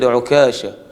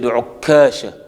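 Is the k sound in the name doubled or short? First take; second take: short; doubled. First: The k sound is short and single. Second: The k sound is doubled and held longer. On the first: "I used to say Ukasha without shadda on the kaf" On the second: "with shadda on the kaf"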